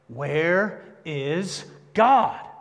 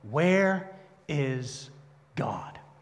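First: It is said loudly, louder than before. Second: It is said sternly at moderate volume.

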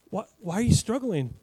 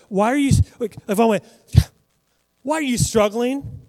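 First: It is said in a gentle, caring tone. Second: It is said in a harsh, contemptuous tone. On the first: "Or if I went" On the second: "Like if I went to someone and I said"

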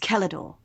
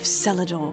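First: It begins with a hard K sound. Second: It begins with a soft S sound. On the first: The speaker calls it right. "with a hard C, from the Celtic" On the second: The speaker calls it wrong. "Oh, bollocks! ... You've got me saying it now"

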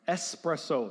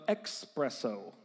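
First: The word begins with an 'es' sound. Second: The word begins with an 'ex' sound. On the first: The speaker calls it right. "that's the proper usage" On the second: The speaker calls it wrong. "not an expresso"

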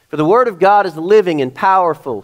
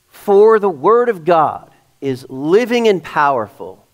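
First: It is read fairly quickly. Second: It is read more slowly.

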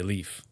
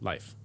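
First: The name is said with an American pronunciation. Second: The name is said with a Norwegian pronunciation. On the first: "here we would say Leif" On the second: "in Scandinavian or the Norwegian, you would say Leif. Is the actual proper pronunciation"

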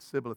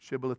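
First: The word begins with an 's' sound. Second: The word begins with a 'sh' sound. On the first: This is the form the speakers actually produced. The speaker calls it wrong. "they said Sibboleth" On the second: This is the form the speakers could not produce. The speaker calls it right. "they couldn't say the word Shibboleth"

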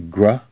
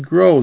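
First: The word ends in a short 'uh' vowel. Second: The word ends in a long 'oh' vowel. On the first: The speaker calls it wrong. "They don't say gruh" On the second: The speaker calls it right. "they say grow"

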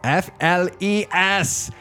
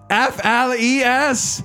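First: It is said with low intensity. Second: It is said with the most intensity.

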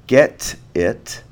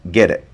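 First: The t is a clear t sound. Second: The t becomes a soft d-like flap.

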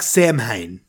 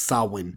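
First: The word is sounded out as it is spelled. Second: The word sounds very different from its spelling. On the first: The speaker calls it wrong. "which looks like Samhain" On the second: The speaker calls it right. "but it's actually pronounced Samhain"

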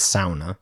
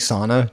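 First: It is said with the original Finnish pronunciation. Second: It is said with an everyday English pronunciation. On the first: This is the original way in its source language. "the original Finnish pronunciation is sauna" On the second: This is the habitual, familiar way to say it. "that's the way I've always said it"

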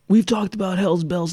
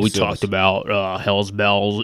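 First: It is said in a normal voice. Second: It is said in a very deep voice. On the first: The speaker calls it wrong. "That's not a good Keith" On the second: The speaker calls it right. "Keith has a very deep voice"

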